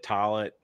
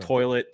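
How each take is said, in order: First: "toilet" with the first vowel as "ah"; regional pronunciation. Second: Said in the usual way. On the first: Shown as a demonstration. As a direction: say "toilet" like "tah-lit". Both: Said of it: "words that differentiate people's accents".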